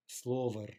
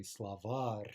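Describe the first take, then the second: First: "slovar" stressed on slo, weak final syllable; stress on first syllable. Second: "slavar" stressed on var, weak first syllable; stress on final syllable. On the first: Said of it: "no reason to think it could possibly be an in-stress noun". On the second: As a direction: put the weight on the end of "slavar". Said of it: "Stress on the final syllable". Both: Shown as a demonstration.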